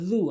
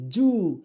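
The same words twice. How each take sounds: First: Tongue tip between the teeth for জু; correct dhal. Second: জু with a hard Bengali j; common mispronunciation. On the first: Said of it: "বলতে হবে কি". (জু আরবি যাল দিয়ে নরম করে) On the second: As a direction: say জু as in "June", not dh. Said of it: "আমরা বলি জু". (জু বাংলা জ দিয়ে) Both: Shown as a demonstration.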